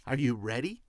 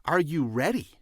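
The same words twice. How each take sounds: First: Said in the usual way. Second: "are you ready" pushed harder and louder; insistent repeat. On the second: Real, not acted. Host challenging listeners before starting, "are you ready" asked insistently. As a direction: press each word of "are you ready". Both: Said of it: "I mean, are you ready?".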